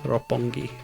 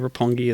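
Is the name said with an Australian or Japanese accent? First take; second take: Japanese; Australian. First: The name is said with a Japanese-style pronunciation. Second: The name is said with a relaxed Australian accent. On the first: "if I was trying to speak Japanese to a Japanese speaker" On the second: "a lazy Australian accent"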